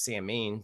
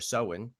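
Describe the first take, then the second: First: The word is said the way it is spelled. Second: The word is said unlike its spelling. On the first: This is how most people say it. The speaker calls it wrong. "which most people pronounce Samhain, but that's not proper" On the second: This goes back to ancient ancestors. The speaker calls it right. "The actual proper pronunciation is"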